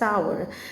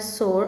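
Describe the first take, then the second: First: The word rhymes with power. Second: The word rhymes with more. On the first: "some people pronounce it as sour" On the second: "S O U R, sore"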